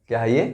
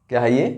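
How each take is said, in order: No difference in how they are said.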